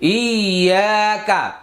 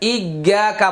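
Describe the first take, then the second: First: The doubled consonant is a clean held y-sound. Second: The doubled consonant sounds harsh and distorted. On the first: The speaker calls it right. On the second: The speaker calls it wrong.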